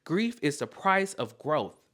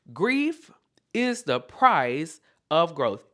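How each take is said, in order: First: Said in the usual way. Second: Slow, loud, word-by-word "is the price of growth"; emphatic repeat. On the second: Real, not acted. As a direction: punch "Grief", pause, then land each word deliberately.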